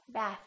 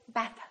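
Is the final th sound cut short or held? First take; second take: held; cut short. First: The final th sound is held and continued. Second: The final th sound is cut off quickly. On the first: The speaker calls it right. "Keep it out" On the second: The speaker calls it wrong. "Don't bring it back in. Don't say bath"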